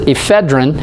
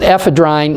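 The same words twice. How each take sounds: First: The last syllable has a short vowel. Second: The last syllable has a long vowel. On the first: The speaker calls it wrong. "A lot of people pronounce it ephedrine" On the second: The speaker calls it right. "you pronounce it ephedrine"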